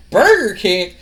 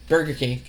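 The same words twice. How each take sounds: First: Louder, higher disbelieving repeat; incredulous echo. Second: Said in the usual way. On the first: Retold or imitated. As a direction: echo it back like it's absurd. [name] echoes in disbelief.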